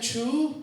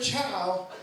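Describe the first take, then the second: First: The vowel sounds like 'oo'. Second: The vowel sounds like 'ow'. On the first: "Sometimes people do it Chu" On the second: "Sometimes people do it Chow"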